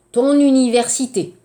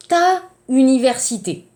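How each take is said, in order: First: TON linked into UNIVERSITÉ with a sounded N; liaison before vowel. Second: TA and UNIVERSITÉ kept apart, two vowels meeting; no linking consonant in "ta université"; wrong vowel clash. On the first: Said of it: "parce que vous avez eu". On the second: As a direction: say "ta université" with a gap between A and U. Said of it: "voyelle, voyelle, impossible". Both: Shown as a demonstration.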